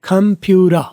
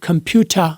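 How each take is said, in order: First: The t becomes a quick flap, American-style. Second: It has a clear t sound and British vowels. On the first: "American में कंप्यूरा" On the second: "British में बोलूंगा तो कंप्यूटर"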